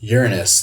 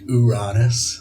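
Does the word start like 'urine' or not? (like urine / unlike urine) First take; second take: like urine; unlike urine. First: The word begins sounding like 'urine'. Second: The word avoids sounding like 'urine' or 'anus'. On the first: "like urine" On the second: "that does cut out any of the urine or anus"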